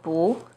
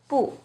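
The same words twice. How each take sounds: First: The syllable has a rising tone. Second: The syllable has a falling tone. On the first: "it changes to the second tone" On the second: "it's always the fourth tone"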